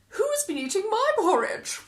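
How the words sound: It is said with a gasp.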